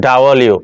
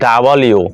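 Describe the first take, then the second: The two takes are said the same way.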